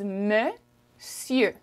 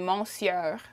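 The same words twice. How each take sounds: First: It is pronounced in its usual spoken French form. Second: It is pronounced closely following its written letters. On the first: The speaker calls it right. "The way you say it is monsieur" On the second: The speaker calls it wrong. "The way you would read it would be monsieur, but that is incorrect"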